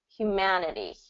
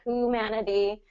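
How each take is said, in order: First: It begins with a 'hyoo' sound, with a y. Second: It begins with a plain 'hoo' sound, no y. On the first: The speaker calls it right. "you do hue" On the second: The speaker calls it wrong. "instead of humanity or humanity"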